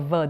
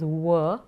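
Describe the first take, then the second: First: The consonant is made with lip and teeth. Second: The consonant is a rounded w sound. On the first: "it's a va, dantoshtya" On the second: "there are times when you would tend to pronounce it as wa"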